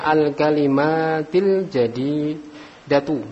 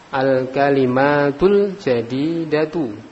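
First: The word kalimat ends in an i vowel. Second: The word kalimat ends in an u vowel. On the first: The speaker calls it wrong. "Enggak boleh dibaca" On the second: The speaker calls it right. "domah, domah"

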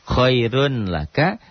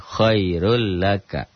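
First: The n is kept before the l. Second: The n merges into a doubled l.

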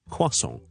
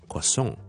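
First: The stress is on the first syllable. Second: The stress is on the last syllable. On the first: This is the British English way of saying it. "英式英文呢我个将个重音呢系放喺前面嘅" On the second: This is the American English way of saying it. "美式英文呢通常呢啲咁嘅来自法文嘅字呢就会将个重音放喺后面"

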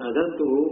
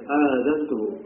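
First: The first vowel is kept short. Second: The first vowel is drawn out long. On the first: I have given him permission. The speaker calls it wrong. "Bukan adzantuhu" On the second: I have announced it to him. The speaker calls it right. "dengan hamzah yang dipanjangkan"

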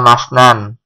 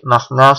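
First: The word ends with an added n sound. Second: The word ends on a vowel without n. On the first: The speaker calls it wrong. "Itu nggak bisa dibaca masnan" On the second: The speaker calls it right. "Tapi masna sulasa ruba"

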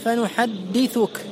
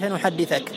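First: The tha is followed by a 'u' vowel. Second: The tha is followed by an 'a' vowel. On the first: The verb is not in the subjunctive after a verbal noun command. The speaker calls it right. "بضم الثاء" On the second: The verb is put in the subjunctive. The speaker calls it wrong. "ولا تفتح الثاء، لا تقول"

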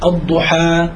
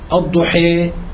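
First: The final vowel is a fully open a. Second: The final vowel leans strongly toward i. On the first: "الفتح" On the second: "الإمالة"

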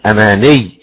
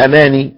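First: The doubled consonant is held with emphasis. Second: The doubled consonant is cut short. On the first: The speaker calls it right. "لابد من النبرة على الحرف المشدد" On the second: The speaker calls it wrong. "لو قلت أماني سقطت حرف"

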